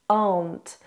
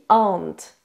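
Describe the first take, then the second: First: The vowel dominates and the R is reduced. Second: The vowel dominates and the R is reduced.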